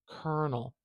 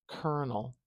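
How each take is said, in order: The two takes are said the same way.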